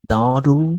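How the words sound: It is said in an American accent.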